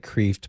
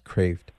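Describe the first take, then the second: First: Kreeft said as spelled, with a long EE; spelling-based pronunciation. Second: Kreeft said "Krayft", with an AY vowel; correct name pronunciation. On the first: Host showing caller how the author's name looks, spelling pronunciation of Kreeft with EE. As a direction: say Kreeft to rhyme with "reefed". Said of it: "It looks like Kreeft". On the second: Host teaching caller the author's name, Kreeft pronounced with AY, as "Krayft". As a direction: say Kreeft to rhyme with "strafed". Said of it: "but it's pronounced Kreeft". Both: Shown as a demonstration.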